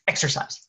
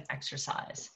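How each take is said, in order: First: Said in the usual way. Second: Whispered, much softer. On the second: Real, not acted. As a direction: breathe the word Exercise as a whisper.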